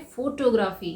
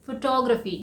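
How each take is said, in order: First: "फोटोग्राफी" as FOH-toh-graa-fee; full "oh" and long "aa" in "फोटोग्राफी"; common mispronunciation. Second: "फोटोग्राफी" as fuh-TOG-ruh-fee; correct pronunciation. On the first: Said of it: "लेकिन हम इसे क्या बोलते हैं?". ("फोटोग्राफी" का आम गलत उच्चारण, फो-टो-ग्राफी) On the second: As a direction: stress TOG in "फोटोग्राफी", short vowels after. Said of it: "इसका सही प्रोनाउंसिएशन है". ("फोटोग्राफी" का सही उच्चारण, फ़-टॉग-र-फ़ी) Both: Shown as a demonstration.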